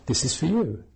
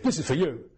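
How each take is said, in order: First: It sounds warm and friendly. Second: It sounds curt and dismissive.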